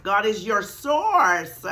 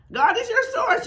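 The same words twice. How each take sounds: First: Said in the usual way. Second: "your" jumps far up in pitch; high emphatic repeat. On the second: Shown as a demonstration. Teacher driving the point home to listeners. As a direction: fling "your source" up high. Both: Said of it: "repeats the line".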